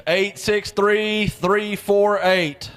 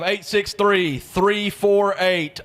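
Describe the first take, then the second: First: Digits repeated even slower; slow repeated number. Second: Deliberate slow readout of raffle digits; slow number call. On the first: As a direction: spell out each digit deliberately. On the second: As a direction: read each digit out slowly. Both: Real, not acted.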